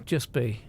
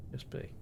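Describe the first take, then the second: First: Said in the usual way. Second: Barely audible repeat; hushed echo. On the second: Real, not acted. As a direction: let it fade to almost nothing. Repeats phrase, second time hushed.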